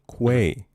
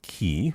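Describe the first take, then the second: First: It starts with a 'kw' sound, like 'kway'. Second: It starts with a plain 'k', like 'key'. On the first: The speaker calls it right. "It's pronounced Quay. With a Q" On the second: The speaker calls it wrong. "Not key"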